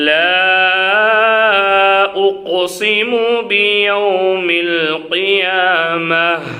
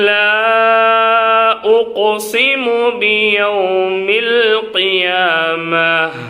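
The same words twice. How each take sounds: The two takes are said the same way.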